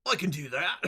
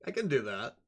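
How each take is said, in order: First: Put-on broad Aussie vowels; Australian accent. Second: Said in the usual way. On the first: Shown as a demonstration. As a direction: say it like an Australian crocodile hunter. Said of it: "Crocodile hunter". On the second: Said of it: "I could do an Australian Sholmes".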